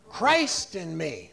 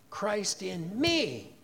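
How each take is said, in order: First: The stress falls on the word Christ. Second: The stress falls on the word me. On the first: "you put the emphasis on the very first word" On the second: "put the emphasis on the third word"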